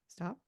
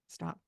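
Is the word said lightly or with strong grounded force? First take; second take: lightly; strong force. First: It is said lightly, without much power behind it. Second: It is said with strong, grounded power behind it.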